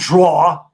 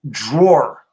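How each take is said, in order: First: The final r sound is dropped. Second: The final r sound is clearly pronounced. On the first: The speaker calls it wrong. "not draw" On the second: The speaker calls it right. "I enunciate letters that are supposed to be enunciated"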